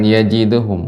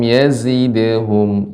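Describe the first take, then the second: First: The middle consonant is a j sound. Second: The middle consonant is a buzzing z sound. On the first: The speaker calls it wrong. "bukan yajidhum" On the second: The speaker calls it right.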